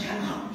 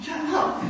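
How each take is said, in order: First: Urgent whisper at the dogs; whispered command to barking sled dogs; whispered hush. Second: Jumps higher, pleading with the dogs; higher, desperate hush after a whisper; higher urgent hush. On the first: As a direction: hiss it so the fishermen can't hear. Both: Retold or imitated. Hushing barking dogs on stakeout.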